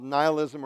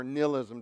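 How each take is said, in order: First: "nihilism" said as NYE-il-ism; first syllable of "nihilism" rhymes with eye; long-i pronunciation. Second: "nihilism" said as NIL-ism; first syllable of "nihilism" like nil; short-i pronunciation. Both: Shown as a demonstration. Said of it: "depending on how you pronounce it".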